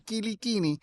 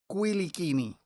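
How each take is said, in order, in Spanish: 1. El apellido se pronuncia a la manera puertorriqueña. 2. El apellido se pronuncia a la manera corsa. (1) "se pronuncia en Puerto Rico Quiliquini" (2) "si nos vamos a la madre patria, entiéndase Córcega, sería Quiliquini"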